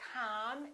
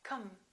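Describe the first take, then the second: First: The vowel is full and clear. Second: The vowel is reduced and weak. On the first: The speaker calls it wrong. "or com" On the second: The speaker calls it right. "The O and the I A are both reduced"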